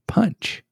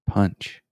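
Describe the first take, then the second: First: It is said with a forceful, punchy ending. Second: It is said in a plain, normal way.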